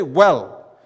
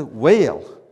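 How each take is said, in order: First: Said in the usual way. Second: Loud Southern "whale" with two syllables, falling; big Southern drawl on whale; Southern accent. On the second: Shown as a demonstration. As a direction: stretch the word into a Southern drawl. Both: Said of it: "Which is better to say".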